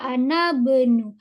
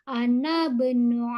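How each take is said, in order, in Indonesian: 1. Vokal i dihilangkan, sehingga ana tersambung menjadi bnu. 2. Vokal i dihilangkan, sehingga ana tersambung menjadi bnu.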